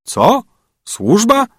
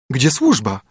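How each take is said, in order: First: Much higher, mocking disbelief; servants? you must be joking; incredulous echo. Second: Said in the usual way. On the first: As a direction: throw the word back at her, amazed. Beggar echoes her question. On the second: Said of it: "spytała córka królewska".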